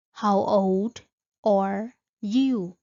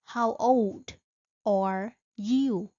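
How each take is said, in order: Both takes have the same delivery.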